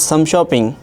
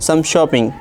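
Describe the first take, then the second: Both takes have the same delivery.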